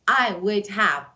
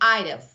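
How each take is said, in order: First: Would is said as a full separate word. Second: Would is shortened and joined onto I. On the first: The speaker calls it wrong. "we don't say I would have" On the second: The speaker calls it right. "We say I'd have"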